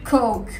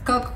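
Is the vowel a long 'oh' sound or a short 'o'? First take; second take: long oh; short o. First: The vowel is a long, stressed 'oh'. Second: The vowel is a short, open 'o'. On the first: It names the soft drink. The speaker calls it right. "il faut bien dire coke. Il se prononce vraiment comme ça, vous insistez" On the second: It sounds like a rude word. The speaker calls it wrong. "je le disais pas forcément bien"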